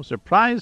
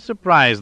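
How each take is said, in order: First: Surprise, sung high with a rising tune; first Surprise, lifted high and teasing. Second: Second surprise, settled down and final; falling surprise. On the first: Gloating captor teasing the prisoner, high rising tune. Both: A narrator's reading. Gloating over captured Suma.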